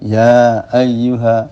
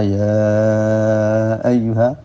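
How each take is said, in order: First: The vowel after ya is held briefly. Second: The vowel after ya is held much longer. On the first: "kan ada panjangnya. Tapi itu disebut pendek" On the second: "itu disebut apa? Mad"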